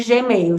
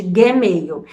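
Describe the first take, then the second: First: Said in the usual way. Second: "Gmail" with a hard g, said "guê-meil"; Portuguese Gmail. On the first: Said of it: "eles não chamam de Gmail". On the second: Shown as a demonstration. Explaining Portugal's letter names to Brazilian viewers, "Gmail" with a hard g. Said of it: "chamam de Gmail".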